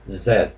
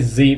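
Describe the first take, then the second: First: The letter is said the British way. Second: The letter is said the American way. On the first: "British use Z" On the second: "I say Z because I stand in America"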